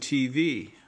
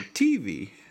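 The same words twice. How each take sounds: First: The stress is on the second syllable. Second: The stress is on the first syllable. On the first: This is how people elsewhere say it. "We say we're watching some TV" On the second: This is how Southern speakers say it. "People in the South say TV. they accent the first syllable"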